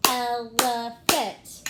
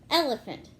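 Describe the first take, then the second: First: "Elephant" slow and loud, one beat per syllable; clapped-out syllables. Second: Said in the usual way. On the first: Shown as a demonstration. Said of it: "Let's clap it out".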